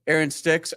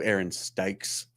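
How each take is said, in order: First: "Sticks" said like the word sticks, short i; "Sticks" rhyming with kicks; wrong name said. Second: "Stikes" said with a long i like strikes, low and slow; low, slow, careful "Stikes" rhyming with bikes; corrected name. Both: Retold or imitated. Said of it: "Uh, it's Stikes".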